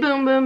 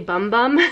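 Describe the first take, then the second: First: The vowel is a long oo sound. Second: The vowel is a short uh sound. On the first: The speaker calls it right. "that is the proper pronunciation" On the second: The speaker calls it wrong. "I want to say Bum Bum because it's B-U-M-B-U-M"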